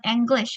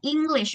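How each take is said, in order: First: The first vowel sounds like E. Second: The first vowel sounds like I. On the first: The speaker calls it wrong. "bukan English" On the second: The speaker calls it right. "bacanya pakai I"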